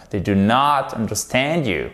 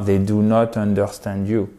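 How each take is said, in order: First: "they do not understand you" with "not" stretched and punched; correct English stress. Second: "they do not understand you" with every syllable equal; flat French-style stress. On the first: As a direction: model the beats on "not" and "understand". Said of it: "C'est pas they do not understand you". (accent tonique marqué sur « not ») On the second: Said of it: "si vous prononcez de manière plate". (prononciation plate, à la française) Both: Shown as a demonstration.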